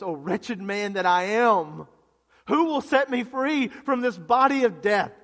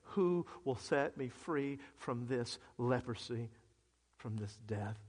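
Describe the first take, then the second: First: Loud, raised, drawn-out lament; impassioned plea at full preaching volume; anguished cry. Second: Soft, low, slow plea; hushed, drained question, fading at the end; numb and tired. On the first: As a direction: cry out in desperation for rescue. Acting out Paul's despairing cry. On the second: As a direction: sink quietly into weary numbness. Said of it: "so numb and so tired of being numb". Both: Acted.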